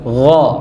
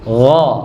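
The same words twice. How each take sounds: The two takes are said the same way.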